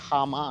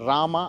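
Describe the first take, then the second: First: The name begins with an h sound. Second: The name begins with an r sound. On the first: This is how the locals say it. "హామా అన్నట్టున్నారు" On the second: This is how the speaker says it. "నేను రామ అన్న పేరు చెప్తే"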